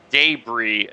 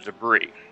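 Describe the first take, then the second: First: It is said with a British pronunciation. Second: It is said with an American pronunciation. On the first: "In the British English, it's debris" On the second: "instead of debris"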